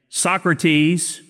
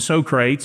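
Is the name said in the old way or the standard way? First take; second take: standard; old. First: The name is said in the standard way. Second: The name is said in a nonstandard way. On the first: The speaker calls it right. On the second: The speaker calls it wrong.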